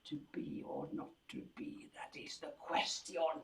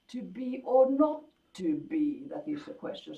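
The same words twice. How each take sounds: First: It gets steadily louder toward the end. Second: It swells in the middle and then falls away. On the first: "make it into a crescendo" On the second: "a sort of little hillock"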